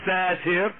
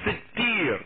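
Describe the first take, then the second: First: The middle consonant is single and short. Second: The middle consonant is doubled and held long. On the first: The speaker calls it wrong. "Not Satir" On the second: The speaker calls it right. "With a shadda"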